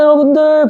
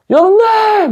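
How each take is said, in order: First: It is said at a normal, calm loudness. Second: It is shouted loudly and energetically.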